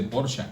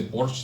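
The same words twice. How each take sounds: First: Porsche in two syllables, with a clear final vowel; German Porsche. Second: Porsche said as one syllable, ending on the sh sound; clipped Porsche. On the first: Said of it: "dicen los alemanes, se dice Porsche". (Porsche en dos sílabas, con la e final sonora) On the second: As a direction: say Porsche short, the final e dropped. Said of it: "dicen los alemanes, que no se dice". (Porsche en una sílaba, sin la e final) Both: Shown as a demonstration.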